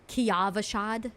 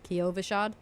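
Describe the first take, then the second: First: The vowel after the first syllable sounds like 'ah'. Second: The vowel after the first syllable sounds like 'oh'. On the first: This is how the speaker said it. "I called it Ki, uh, Kiavashad" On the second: This is how others say it. "they call it Kyo, Kiovashad"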